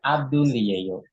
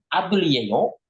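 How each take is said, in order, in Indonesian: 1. Nadanya turun di akhir. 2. Nadanya naik tinggi di akhir.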